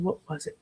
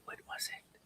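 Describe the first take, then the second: First: Said in the usual way. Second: Whispered to herself, no voice. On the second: Shown as a demonstration. Searching the chat, whispers to herself. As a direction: breathe the question out in a whisper. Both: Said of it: "repeats question, second take whispered".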